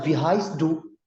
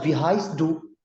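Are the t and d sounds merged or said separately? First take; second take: merged; merged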